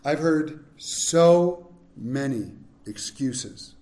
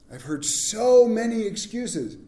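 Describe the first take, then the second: First: Drawn out slowly, low and tired; weary slow. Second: Said in the usual way. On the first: Acted. Preacher sighing over excuses he has heard, slow and weary. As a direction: let the weariness stretch each word. Repeated line, slower.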